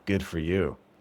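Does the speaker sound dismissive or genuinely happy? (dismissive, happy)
dismissive. It is said in a flat, dismissive tone. The speaker does not really care about the news. "good for you could be a negative or it could be sarcastic"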